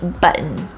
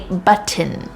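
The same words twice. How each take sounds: First: The middle t is a glottal stop. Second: The middle t is a clear t sound. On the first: The speaker calls it right. "I would say button" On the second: The speaker calls it wrong. "I wouldn't say button"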